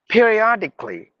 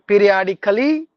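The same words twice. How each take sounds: First: The ending is said with the A silent. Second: The ending is said with the A sounded. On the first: The speaker calls it right. "you just have to mute the A" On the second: The speaker calls it wrong.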